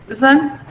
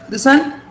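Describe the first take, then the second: Both takes have the same delivery.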